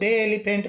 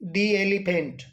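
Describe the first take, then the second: First: 'The' is said with a 'duh' vowel. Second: 'The' is said with a short 'dee' vowel. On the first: The speaker calls it wrong. "इसको दे elephant नहीं बोलेंगे" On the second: The speaker calls it right. "तो हम इसको बोलेंगे"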